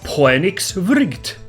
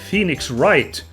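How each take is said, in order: First: The name is said with a Finnish accent. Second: The name is said with a normal English accent.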